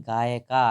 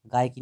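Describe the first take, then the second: First: गायिका ending on an open "kaa"; corrected word. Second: गायकी ending in "kee"; wrong word. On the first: Teacher giving the right word, "kaa" ending demo. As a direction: land गायिका on a long "aa", a bit firmer. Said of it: "ये जो है गायकी नहीं". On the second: Teacher rejecting the wrong reading, "kee" ending demo. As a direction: end गायकी on a long "ee". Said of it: "नहीं". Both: Shown as a demonstration.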